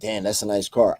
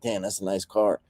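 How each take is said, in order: First: It sounds admiring and motivated. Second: It sounds grudging and envious.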